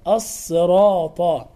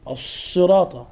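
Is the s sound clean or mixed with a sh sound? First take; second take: clean; sh-mixed. First: The s sound is clean and heavy. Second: The s sound is blended with a sh sound. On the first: The speaker calls it right. "مع تفخيم الطاء مع مراعاة المد الطبيعي بعد حرف الراء هكذا" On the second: The speaker calls it wrong. "فيدخل حرف الشين على الحرف ... هذا خطا"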